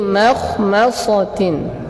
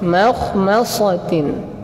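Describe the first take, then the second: No difference in how they are said.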